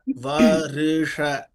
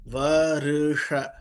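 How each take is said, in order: First: A short i sound separates r and sh. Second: A short i sound separates r and sh.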